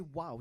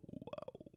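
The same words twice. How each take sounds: First: Said in the usual way. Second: Breathed out with no voice at all; just air, no voice, on wow; voiceless wow. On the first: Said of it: "Now, when you say". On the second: Shown as a demonstration. Host demonstrating to the crowd, a voiceless breathed wow. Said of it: "you go".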